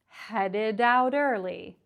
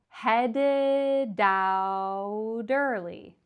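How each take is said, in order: First: The phrase is said quickly and smoothly. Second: The phrase is said slowly and carefully. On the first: "when you speed it up, it sounds really natural" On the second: "start off saying it slow like that"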